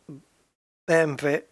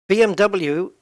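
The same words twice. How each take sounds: First: The letters are spoken with German letter names. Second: The letters are spoken with English letter names.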